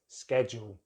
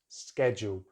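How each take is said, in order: First: The word begins with a 'sked' sound. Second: The same.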